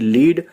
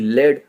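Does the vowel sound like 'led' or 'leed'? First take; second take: leed; led. First: The vowel is long, like 'leed'. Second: The vowel is short, like 'led'. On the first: "कभी लीड" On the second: "कभी लेड पढ़ा जाता है"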